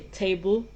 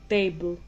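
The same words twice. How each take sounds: First: The first consonant has a breathy puff. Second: The first consonant is crisp without breath. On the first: The speaker calls it wrong. "you won't say table" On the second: The speaker calls it right. "You say table, you don't have any breathy sounds"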